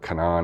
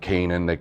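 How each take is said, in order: First: The name is pronounced the way the company says it. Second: The name is pronounced the way it is spelled. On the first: "I think is how they pronounce it" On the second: "is how it's spelled"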